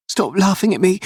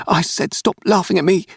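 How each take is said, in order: First: Put-on a furious little boy shouting back; yelling child. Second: Put-on a boy who finally snaps; crying out in rage. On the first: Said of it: "he yelled". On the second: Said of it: "he cried". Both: A narrator's reading.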